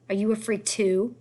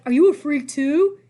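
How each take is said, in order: First: Slow, mocking bully's question; slow, light bully sneer. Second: Louder, slow, put-on bully sneer; mock Eddie voice. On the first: A narrator's reading. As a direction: Eddie sneering at the kids. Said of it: "said Eddie". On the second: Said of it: "He was like".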